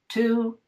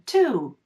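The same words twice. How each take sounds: First: The pitch stays level on the word. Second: The pitch rises on the word.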